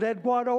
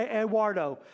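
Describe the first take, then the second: First: Eduardo with a hard d-gw in the middle; hard-d pronunciation. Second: Eduardo with a smooth w after the d; soft-w pronunciation. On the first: Preacher unsure of a name, trying Eduardo as ed-GWAR-doh. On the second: Preacher unsure of a name, trying Eduardo as ed-WAR-doh. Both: Shown as a demonstration. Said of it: "I don't know for sure".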